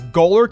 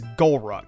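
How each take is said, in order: First: The name ends with the sound 'lurk'. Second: The name ends with the sound 'ruk'. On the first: The speaker calls it right. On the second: The speaker calls it wrong.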